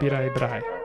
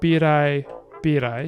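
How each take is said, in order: First: The second word drops its first vowel. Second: The second word keeps its first vowel. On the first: "you'd say" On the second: "instead of saying"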